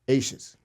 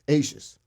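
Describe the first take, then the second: Both takes have the same delivery.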